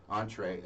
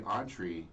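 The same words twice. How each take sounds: First: "entree" said as ON-tray; entree ending in "ay". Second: "entree" said as ON-tree; entree ending in "ee". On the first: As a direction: end "entree" on a "tray" sound. Corrects own pronunciation. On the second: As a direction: end "entree" on a "tree" sound. Says word, then re-pronounces it. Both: Real, not acted.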